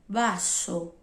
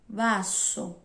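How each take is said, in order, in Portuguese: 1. A palavra começa com um som parecido com b. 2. A palavra começa com um som parecido com b.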